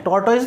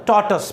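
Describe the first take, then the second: First: टॉर्टोइज said with full spelled-out ending, tor-toyz; the common mistake, टॉर्टोइज as tor-toyz; teacher shows the wrong form टॉर्टोइज; wrong pronunciation. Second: टॉर्टस said short as tor-tus, no oiz ending; teacher models टॉर्टस as tor-tus; correct pronunciation. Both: Shown as a demonstration. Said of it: "टॉर्टोइज नहीं होता".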